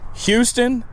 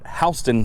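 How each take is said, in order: First: The name is said the widely used way. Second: The name is said the local way. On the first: This is how most people say it. "what most people will pronounce as Houston" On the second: This is how people in the state say it. "but we call it Houston, Delaware"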